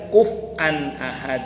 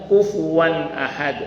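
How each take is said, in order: First: The first word has a glottal stop in the middle. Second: The first word has a w sound in the middle. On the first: This is how some other readers read it. "ada yang baca" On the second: This is how the speaker's own community reads it. "Kalau kita baca"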